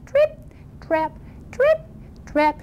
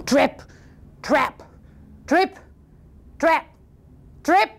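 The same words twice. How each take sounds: First: Little high-pitched trip-trap; tiny light hoofsteps, spaced apart; small, dainty goat footfalls; teeny tiny footsteps. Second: Heavy, widely spaced trip-trap; lightly voiced thudding hoofsteps; thunderous footsteps. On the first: Acted. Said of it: "he made a teeny tiny bridge, little noise like this". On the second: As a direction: stomp each word out, one by one. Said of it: "it sounded like thunder".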